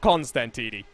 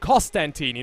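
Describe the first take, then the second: First: The first syllable has an N sound. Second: The first syllable has no N sound. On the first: The speaker calls it wrong. "not Constantini" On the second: The speaker calls it right. "There's no N there at the start"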